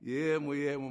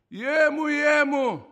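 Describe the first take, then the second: First: Gentle, unforced call to a son; soothing divine voice, acted out; soft voice of Spirit. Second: High, booming-loud call; thunderous, commanding voice of God, acted out; stentorian divine voice. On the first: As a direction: say it tenderly, without shouting. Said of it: "Ήρθε η φωνή του Πνεύματος του Αγίου, μαλακιά". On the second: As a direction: call out as a mighty Father to a son. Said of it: "αντρική στεντόρια, δυνατή, φοβερή".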